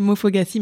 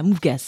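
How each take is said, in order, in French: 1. Le mot est prononcé sous une forme plus longue et complète. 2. Le mot est prononcé sous une forme courte et réduite.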